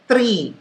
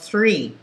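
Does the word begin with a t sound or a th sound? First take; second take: t; th. First: It begins with a plain t sound. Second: It begins with a th sound. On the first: The speaker calls it wrong. "the th becomes a t" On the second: The speaker calls it right. "instead of"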